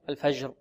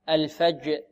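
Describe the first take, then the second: First: The j sound flows on without a full stop. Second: The j sound is a firm, abrupt stop. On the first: The speaker calls it wrong. "لا نقول الفجر الفجر" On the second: The speaker calls it right. "الجيم نقول شديدة"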